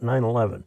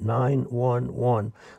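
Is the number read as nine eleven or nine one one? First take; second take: nine eleven; nine one one. First: The number is read as nine, then eleven. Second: The number is read as nine, one, one. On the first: The speaker calls it wrong. "not 911" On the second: The speaker calls it right. "but 911"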